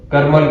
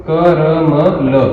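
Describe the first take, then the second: First: Said in the usual way. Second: क र म ल drawn out slowly, each syllable separate; letter by letter. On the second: Shown as a demonstration. Teacher spelling out a memory word for students, letter by letter. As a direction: spell out क र म ल very slowly, one sound at a time.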